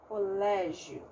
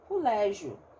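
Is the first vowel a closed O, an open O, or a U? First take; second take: closed O; U. First: The first vowel is a closed O sound. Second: The first vowel is pronounced as a U. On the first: "eu uso o O, né? O O fechado" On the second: "tem gente que fala cu, lé, colégio"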